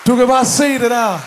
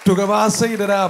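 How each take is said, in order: First: Demonstration loud. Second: Said in the usual way. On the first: Shown as a demonstration. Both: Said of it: "han gør sådan her".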